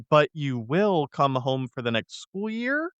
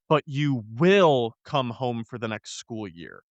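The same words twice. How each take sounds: First: It is said as an uncertain question. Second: It is said as a flat, firm statement. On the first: She is asking whether he will come home. The speaker calls it right. "It's actually" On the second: She is commanding him to come home. The speaker calls it wrong. "I said that wrong because, I don't know if you noticed, there's a question mark at the end"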